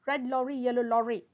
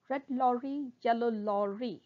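First: Quick, run-together delivery; sped-up tongue twister. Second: Measured, careful articulation; slow tongue twister. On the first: Teacher shows students the twister at speed, quickly. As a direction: rattle it off in one go. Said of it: "speed up". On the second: Teacher models a tongue twister for students, slowly. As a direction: say each word deliberately. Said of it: "first try saying them slowly". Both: Shown as a demonstration.

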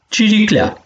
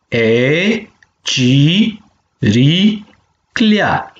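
First: Said in the usual way. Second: Syllable by syllable. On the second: Shown as a demonstration. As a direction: chant out ci - ri - clea for the class to repeat. (pe silabe: ci, ri, clea) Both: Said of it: "penem palalman de vitumen".

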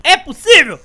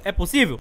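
First: Shouted, louder and higher; loud disbelief. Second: Said in the usual way. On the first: Real, not acted. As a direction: yell it in disbelief. Disbelief at game moment.

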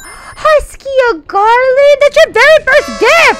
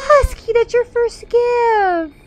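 First: High, loud, thrilled thanks; gushing high-pitched excitement; excited shriek. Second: High, slow, drawn-out cooing; softened high gushing; touched. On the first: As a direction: squeal with delight at a gift. Thanks viewer for first gift. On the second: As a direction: coo it slowly, moved by the gift. Repeats it, touched by gift. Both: Real, not acted.

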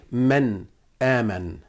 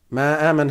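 First: "man aman" with a full noon, as /mæn æmən/; right version. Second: "Ma aman" with the noon dropped, as /maː mən/; wrong version. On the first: Teacher correcting students to a full noon in "man aman". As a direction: sound the noon fully in "man aman", soft and low. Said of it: "No, we say man aman". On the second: Teacher showing students the wrong "Ma aman" without noon. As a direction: swallow the noon in "Ma aman", stretching the ma. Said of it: "We don't say ma aman". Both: Shown as a demonstration.

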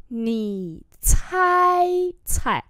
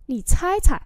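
First: Slow, pause after "Nǐ"; teacher's slow demo; slow model reading. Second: Said in the usual way. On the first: Shown as a demonstration. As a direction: hold "Nǐ" and the first "cai" long. Same phrase drawn out for learners.

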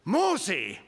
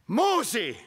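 First: A divine summons from above; voice of God calling. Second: The second call higher and louder; insist, now it's serious; God calling again, stronger. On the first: God calling Moses by name, solemn and commanding. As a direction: call the name out, solemn and higher. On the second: God calling Moses a second time, higher and louder. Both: Acted. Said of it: "Und so sagt Gott hier".

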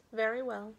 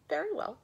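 First: Lightly voiced child's assent; obedient baby. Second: High, loud ogre's assent. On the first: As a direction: agree simply, with only a slight lift. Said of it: "answered he". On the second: Acted. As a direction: agree in a raised ogre voice. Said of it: "said the ogre".

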